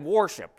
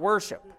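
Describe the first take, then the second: First: The first syllable sounds like the word war. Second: The first syllable is the usual reduced wur sound. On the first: "You sounded to me like you said worship" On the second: "not worship"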